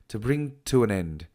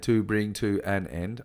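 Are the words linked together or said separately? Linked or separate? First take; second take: linked; separate. First: The words run together almost as one word. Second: Each word is said separately and fully. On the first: The speaker calls it right. "I say ... to an end almost becomes one word" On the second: The speaker calls it wrong. "I don't say"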